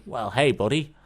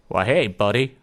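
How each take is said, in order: First: Said in the usual way. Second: Put-on louder, amateur go at a Yukon neighbour's accent; attempted Yukon accent. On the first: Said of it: "I can't really do accents". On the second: Joke teller voices Bob's Yukon neighbour saying hello, amateur accent. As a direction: have a rough go at a Yukon accent. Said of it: "I'll have a go anyway".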